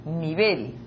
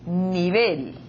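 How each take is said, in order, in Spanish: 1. La tónica está en la última sílaba. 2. La tónica está en la última sílaba.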